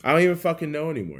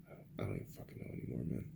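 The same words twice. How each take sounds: First: Higher, louder and fast; exasperated outburst. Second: Fast unvoiced whisper, much softer. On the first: To viewers after whispering it, a fast exasperated outburst. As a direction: blurt it out, giving up. Repeats the line aloud. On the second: Muttering to himself about the country, fast whisper. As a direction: hiss it under your breath, worn out. Exasperated trailing-off whispered aside. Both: Real, not acted.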